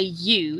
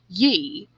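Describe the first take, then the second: First: The word ends with a full oo vowel. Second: The word ends with a short ee-like vowel. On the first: "he doesn't say you" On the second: "he says ye"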